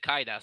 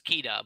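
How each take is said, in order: First: The surname is pronounced the common American way. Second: The surname is pronounced the original, non-American way. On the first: The speaker calls it wrong. "a lot of Americans pronounce it Kaida" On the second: The speaker calls it right. "You guys actually pronounce it correct. It's Kita"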